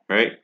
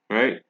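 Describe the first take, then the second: No difference in how they are said.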